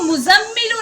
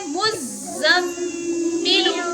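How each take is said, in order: First: The z sound is short and single. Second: The z sound is doubled and held. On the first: The speaker calls it wrong. "इसको मुज़म्मिलु नहीं पढ़ेंगे" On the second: The speaker calls it right. "इसको पढ़ेंगे मुज़म्मिलु, क्योंकि जा पर क्या है? तशदीद।"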